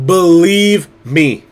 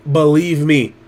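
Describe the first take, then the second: First: "Believe" stretched slow and leaned on; slow emphatic insistence. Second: Said in the usual way. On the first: Real, not acted. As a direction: drag out "Believe me" to plead sincerely.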